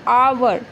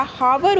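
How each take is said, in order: First: आवर starting on an open vowel, "aa-var"; silent H. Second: हावर with a spoken H, "haa-var"; H wrongly sounded. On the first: Teacher giving the correct pronunciation, आवर with silent H. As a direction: say आवर with no H in front. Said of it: "तो उसको बोला क्या जाता है". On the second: Teacher showing the spelling trap, हावर with the H pronounced. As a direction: say हावर breathing the H at the start. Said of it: "इसमें H हमेशा क्या होता है". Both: Shown as a demonstration.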